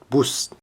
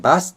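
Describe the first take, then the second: First: The vowel after b sounds like u. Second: The vowel after b sounds like a. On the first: It means an ugly woman. The speaker calls it wrong. "Anda jangan sebut bus" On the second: It means the vehicle, a bus. The speaker calls it right. "Harus dilafalkan sebagai bus di Jepang"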